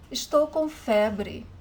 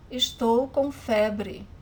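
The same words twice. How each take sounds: The two takes are said the same way.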